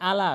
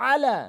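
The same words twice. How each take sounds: First: আলা with a plain opening a; wrong, no ain. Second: আলা starting with a squeezed throat sound; correct ain. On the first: Retold or imitated. Teacher mimics our mistake, plain a. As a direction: say আলা with a relaxed Bengali vowel. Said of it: "ভুল উচ্চারণ করি". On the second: Shown as a demonstration. Teacher gives the correct version, throaty ain. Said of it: "সঠিক উচ্চারণ হচ্ছে".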